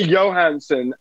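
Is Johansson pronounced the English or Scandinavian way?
Scandinavian. The name has a Scandinavian pronunciation. The speaker calls it right. "So you say Johansson"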